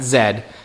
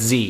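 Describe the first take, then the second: First: The letter is said as zed. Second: The letter is said as zee. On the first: This is how British people say it. The speaker calls it wrong. "not Z" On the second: This is the speaker's own way of saying it. The speaker calls it right. "It's Z"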